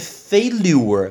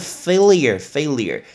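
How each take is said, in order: First: The word ends with a full 'lure' sound. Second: The word ends with a short 'lyer' sound. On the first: The speaker calls it wrong. "很多人会念failure，不对哦，不是lure" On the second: The speaker calls it right. "是failure"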